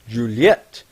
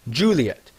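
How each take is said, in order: First: The name is said the French way. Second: The name is said the English way.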